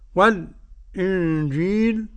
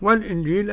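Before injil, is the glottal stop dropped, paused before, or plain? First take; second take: paused; plain. First: A brief silence comes before the glottal stop. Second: The glottal stop is said fully without silence. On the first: "أد السكت" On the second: "أد التحقيق"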